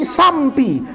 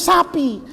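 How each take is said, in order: First: The word has an m before the p. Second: The word has no m before the p. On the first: The speaker calls it wrong. "mesti sampi. Mana M-nya kata saya" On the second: The speaker calls it right. "nggak bisa ngomong sapi"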